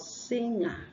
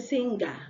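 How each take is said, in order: First: No hard g sound follows the ng. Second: A hard g sound follows the ng. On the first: The speaker calls it right. "the G is silent" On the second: The speaker calls it wrong. "you don't say singer"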